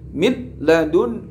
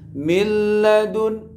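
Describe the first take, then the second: First: The n is pronounced clearly before the l. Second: The n merges fully into the following l. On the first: The speaker calls it wrong. "tidak boleh dibaca idhar qamariyah" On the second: The speaker calls it right. "tapi harus idgham"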